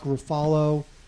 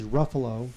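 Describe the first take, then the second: First: The name is said not rhyming with buffalo. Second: The name is said to rhyme with buffalo. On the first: The speaker calls it wrong. "not Mark Ruffalo" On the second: The speaker calls it right. "rhymes with buffalo"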